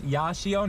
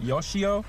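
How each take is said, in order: First: The first vowel sounds like 'ah'. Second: The first vowel sounds like 'oh'. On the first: The speaker calls it right. "It's Yashio" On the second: The speaker calls it wrong. "not Yoshio, so I keep pronouncing that wrong"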